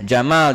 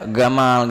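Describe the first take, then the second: First: It begins with a soft J sound. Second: It begins with a hard G sound. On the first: The speaker calls it right. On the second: The speaker calls it wrong.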